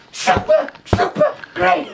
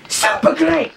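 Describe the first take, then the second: First: High squeal of delight; squealing excitedly. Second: Said in the usual way. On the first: Shown as a demonstration. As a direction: squeal it, overjoyed. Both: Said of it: "repeats it higher".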